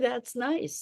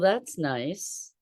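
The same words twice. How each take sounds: First: It sounds warm and sincere. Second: It sounds cool and critical. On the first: The speaker genuinely likes it. "Like really, truly, that's nice. Authentically" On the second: The speaker is finding fault with it. "And it's a criticism"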